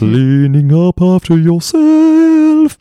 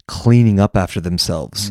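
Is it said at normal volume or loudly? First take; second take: loudly; normal volume. First: It is said very loudly. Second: It is said at normal volume.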